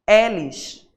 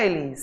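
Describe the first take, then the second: First: The first vowel is said slightly open. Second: The first vowel is said closed. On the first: This is how people in Portugal said the name. "o meu nome lá era Elis" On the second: This is the speaker's usual Brazilian way of saying the name. "Não era Elis"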